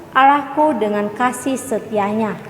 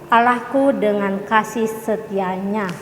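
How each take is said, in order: Both takes have the same delivery.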